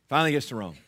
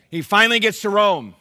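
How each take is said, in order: First: Said in the usual way. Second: "finally" punched high and loud; emphatic retry. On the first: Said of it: "Let me try that again". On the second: Shown as a demonstration. Pastor making the church feel the significance, "finally" punched high and loud. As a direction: proclaim it, hammering "finally". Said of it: "nobody got the significance of this".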